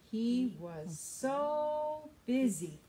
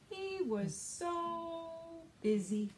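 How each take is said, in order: First: Slow, louder, stretched so busy; stress on so. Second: Higher refrain. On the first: Teacher asks children to say the refrain together. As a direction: lean on so and invite the kids to say it. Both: Shown as a demonstration. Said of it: "Help me say this".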